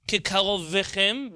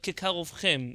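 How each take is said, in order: First: A short vowel follows the v sound. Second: The v runs straight into the next consonant. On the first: The speaker calls it wrong. "not kekarovvechem" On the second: The speaker calls it right. "You just say the v without getting stuck on it"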